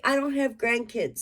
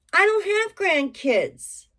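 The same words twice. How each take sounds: First: Said in the usual way. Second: Don't leaned on, higher and slower; "I DON'T have grandkids", don't raised and drawn out; stress on don't. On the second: Real, not acted. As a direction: insist on don't, slow and high. Repeats the line for emphasis.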